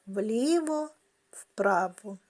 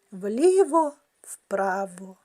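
First: Вліво-вправо stretched slowly and evenly; slow pendulum rhythm; slow counting. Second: Вліво-вправо drawn out slowly, swinging like a pendulum; slow, loud pendulum rhythm; slow counting. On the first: Teacher keeps the clock exercise slow. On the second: Teacher paces the clock exercise for children. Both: Shown as a demonstration. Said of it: "треба рухати ним вліво-вправо".

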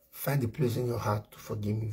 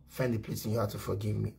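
First: Quiet plea. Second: Much softer, pleading; hushed and pleading; begged quietly to Vera; soft plea. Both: Real, not acted.

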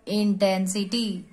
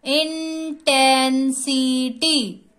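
First: Said in the usual way. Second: intensity in four slow, stretched beats with gaps; intensity drawn out for counting four syllables. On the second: Shown as a demonstration. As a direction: sound out intensity carefully, one syllable at a time. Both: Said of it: "ध्यान से देखिएगा".

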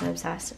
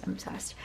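First: Said in the usual way. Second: Breathy whisper, trailing off. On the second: Real, not acted. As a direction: whisper it to yourself, almost gone. Repeating obsessed, fading away.

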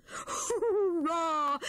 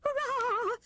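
First: Much higher cheer with a laugh; Hare's laughing hurrah. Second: Very much higher cheer; Squirrel's squeaky hurrah. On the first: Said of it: "cried Hare". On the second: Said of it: "cried Squirrel". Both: A narrator's reading.

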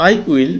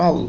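First: Said in the usual way. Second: "I'll" as one short syllable; contracted form. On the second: Shown as a demonstration. Teacher shows learners what we say, "I'll" in one syllable. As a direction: merge it into a single "I'll". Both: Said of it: "আমরা কি বলবো?".

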